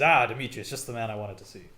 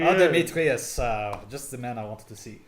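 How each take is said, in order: First: It is said in a plain, unaccented voice. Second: It is said in a French accent. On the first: The speaker calls it wrong. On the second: The speaker calls it right.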